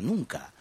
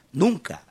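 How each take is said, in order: First: Said in the usual way. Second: A firm final nunca; emphatic repeat. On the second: Shown as a demonstration. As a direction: punch the second nunca hard and high.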